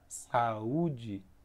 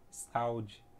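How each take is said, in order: First: The u is its own strongly stressed syllable. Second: The u joins the a in one syllable. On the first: The speaker calls it right. "o U ele é enfático, ele tem o som mais forte na palavra saúde" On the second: The speaker calls it wrong. "Se ele fosse ficar na mesma sílaba, teria que retirar o acento"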